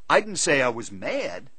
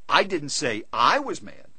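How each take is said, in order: First: The stress is on the word mad. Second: The stress is on the second I. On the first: A different feeling was claimed. "I said I was disappointed" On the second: A different person was the one who was mad. "I said he was mad"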